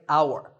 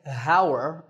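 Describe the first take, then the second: First: The word starts with a vowel sound, no h. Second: The word starts with a pronounced h sound. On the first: The speaker calls it right. "that H is silent. ... The first sound is an ow sound" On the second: The speaker calls it wrong. "We don't say hour"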